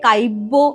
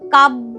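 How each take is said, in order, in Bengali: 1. 'b'-এর আগে একটি অতিরিক্ত 'i' ধ্বনি আসে। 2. এটি অতিরিক্ত 'i' ধ্বনি ছাড়া উচ্চারিত হয়।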